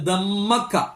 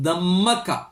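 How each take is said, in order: First: The m is held long and doubled. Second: The m is held long and doubled.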